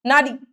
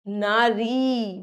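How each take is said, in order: First: नारी quick, with a short final i; short-i error. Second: नारी very slow, both vowels stretched; drawn-out "naa-reeee"; long ī. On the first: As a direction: say नारी wrongly as a quick "nari". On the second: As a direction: hold the final ee of नारी. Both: Shown as a demonstration. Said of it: "बड़ी की मात्रा".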